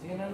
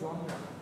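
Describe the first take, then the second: First: The word is said as 'jenar'. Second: The word is said as 'jonra'. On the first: The speaker calls it wrong. "জেনার না" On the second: The speaker calls it right. "এটাকে বলে জনরা"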